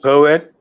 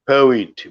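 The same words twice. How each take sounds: First: It is said with an American accent. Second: It is said with a British accent.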